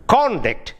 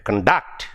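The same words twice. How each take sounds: First: "conduct" as CON-duct, first syllable high; stress on first syllable. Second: "conduct" as con-DUCT, weak first syllable; stress on second syllable. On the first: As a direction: say "conduct" as the noun, punching CON. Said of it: "if it is in the first syllable". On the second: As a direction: say "conduct" as the verb, weight on DUCT. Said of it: "when it comes to conduct". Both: Shown as a demonstration.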